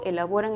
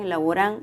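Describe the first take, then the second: First: The stress falls in its usual place. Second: The stress is moved to another syllable. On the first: The speaker calls it right. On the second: The speaker calls it wrong.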